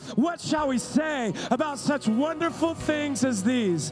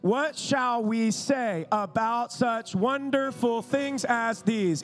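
First: It is read loudly at a normal pace. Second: It is read in a slow, halting classroom way.

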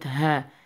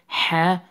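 First: The h is a plain, light breathy sound. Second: The h is a tight, raspy sound from the throat. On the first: The speaker calls it wrong. "not ha" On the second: The speaker calls it right. "pronounce it ha from the middle of your throat"

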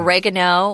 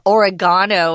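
First: It is said in an American accent. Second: It is said in a British accent.

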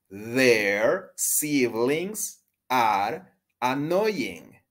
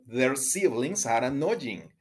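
First: The sentence is spoken at a slower pace. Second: The sentence is spoken at a faster pace.

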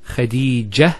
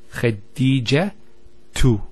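First: The word ends with a soft h sound. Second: The word ends with a t sound and vowel. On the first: The speaker stops on this word. "If we stop at the ta, it's a ha" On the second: The word continues with a case ending. "We pronounce the ta"

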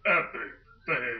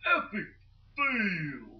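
First: It is said in a deeper voice. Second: It is said in a normal voice.

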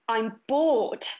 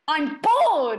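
First: The line is said at a normal, quiet volume. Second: The line is shouted loudly.

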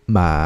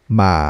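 The two takes are said the same way.

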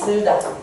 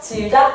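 First: The first vowel is the unrounded back 'eu'. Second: The first vowel is the front vowel 'i'. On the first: This is the older form of the word. The speaker calls it wrong. "불편하지?" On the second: This is the modern form of the word. The speaker calls it right. "그래서 오늘날에는 이렇게 안 해"

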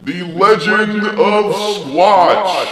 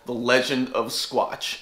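First: It is said in a dramatic, epic way. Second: It is said in a plain, ordinary way.

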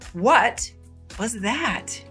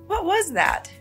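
First: The question sounds polite and asks for a repeat. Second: The question sounds shocked and surprised at the news. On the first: The speaker wants the other person to repeat themselves. "You can politely ask someone to repeat themselves" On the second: The speaker is surprised by what they heard. "show shock and surprise"

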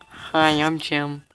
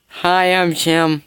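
First: It is said quietly. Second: It is said loudly.

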